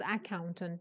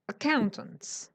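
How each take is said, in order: First: The word begins with a full vowel. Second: The word begins with a weak schwa vowel. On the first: The speaker calls it wrong. "It's not accountant" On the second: The speaker calls it right. "it starts with a schwa"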